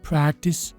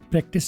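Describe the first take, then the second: First: The first syllable is stretched long. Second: The first syllable is short and plain. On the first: The speaker calls it right. "पी पट गया, प्रै लंबा हो गया" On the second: The speaker calls it wrong. "प्रैक्टिस नहीं"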